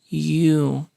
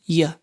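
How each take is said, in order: First: The vowel is a long oo sound. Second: The vowel is a weak schwa sound. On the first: "strong form, with a long oo sound" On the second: "even weaker with a schwa sound"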